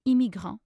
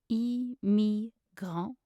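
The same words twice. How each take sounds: First: Said in the usual way. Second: Very slow, separated French syllables. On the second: Shown as a demonstration. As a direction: sound out each syllable. Pronunciation guide, broken-down take.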